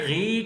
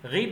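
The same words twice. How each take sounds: First: The vowel is drawn out long. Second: The vowel is cut short. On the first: The speaker calls it wrong. "गी करके लंबा नहीं करेंगे" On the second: The speaker calls it right. "गी पढ़ेंगे"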